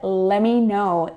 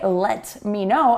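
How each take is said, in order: First: The T in let is not released. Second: The T in let is clearly released. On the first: "I said" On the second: "I didn't say"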